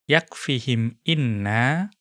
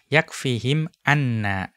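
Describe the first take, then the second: First: The particle after yakfihim begins with an 'i' vowel. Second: The particle after yakfihim begins with an 'a' vowel. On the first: The speaker calls it wrong. "tidak boleh dibaca yakfihim inna" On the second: The speaker calls it right. "harus dibaca yakfihim anna dengan fathah"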